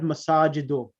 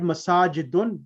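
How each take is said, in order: First: The word ends on a vowel, no n. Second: The word ends with an added n sound. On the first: The speaker calls it right. "just read masajidu" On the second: The speaker calls it wrong. "it's never read masajidun"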